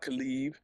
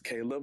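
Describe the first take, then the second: First: The name is said with a Spanish pronunciation. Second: The name is said with an English pronunciation. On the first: The speaker calls it wrong. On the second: The speaker calls it right. "it's Caleb ... we're going to use the English diction"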